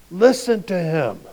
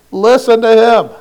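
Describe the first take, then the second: First: Said in the usual way. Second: Louder and higher, a divine command; God ordering the disciples to listen. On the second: Pretend. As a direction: boom it down from the cloud.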